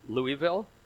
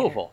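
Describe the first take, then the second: First: It is said the way outsiders pronounce it. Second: It is said the way locals pronounce it. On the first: The speaker is not from the area. The speaker calls it wrong. "if you called it Louisville, you by local standards, you were going to have a problem" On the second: The speaker belongs to the area. The speaker calls it right. "you just had to say it with a certain inflection"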